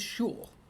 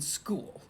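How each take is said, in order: First: The word begins with an sh sound. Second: The word begins with an sk sound. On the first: It imitates a character's odd pronunciation. "that's the way Megamind pronounces it, as in shul" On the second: It is the ordinary pronunciation. "I mean"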